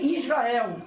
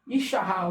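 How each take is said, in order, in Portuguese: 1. O nome é pronunciado com o som de 's'. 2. O nome é pronunciado com o som de 'sh'. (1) "não é Israel" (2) "é a vocalização correta"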